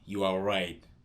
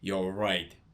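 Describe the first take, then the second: First: Every word is said fully and separately. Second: The first two words merge into one short syllable. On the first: "Instead of saying you are right" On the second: "you can say you're right"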